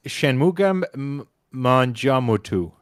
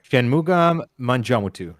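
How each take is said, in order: First: Shanmugam M-, Manjamutu stumbled slowly; slow, unsure Shanmugam Manjamutu; first go at a subscriber's name; halting first try. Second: Shanmugam Manjamutu said smoothly in one go; retry at a subscriber's name; second try. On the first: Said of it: "No, let me try that again". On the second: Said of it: "let me try that again". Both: Shown as a demonstration.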